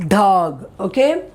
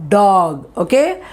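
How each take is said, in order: No difference in how they are said.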